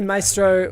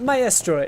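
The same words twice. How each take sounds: First: It is pronounced in an English-sounding way. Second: It is pronounced in an Italian-sounding way. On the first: "I'm going to say Maestro for the majority of this cast" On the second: "Maestro is the most accurate pronunciation"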